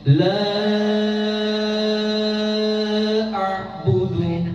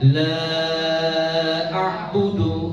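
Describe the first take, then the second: First: The vowel of 'la' is held longest of all. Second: The vowel of 'la' is held four beats. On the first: "Kalau panjang lagi" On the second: "Kalau empat harokat"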